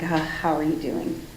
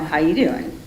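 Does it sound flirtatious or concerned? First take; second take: concerned; flirtatious. First: It sounds empathetic and concerned. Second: It sounds flirtatious, like Joey from Friends.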